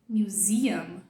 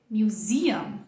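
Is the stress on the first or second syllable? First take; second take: second; second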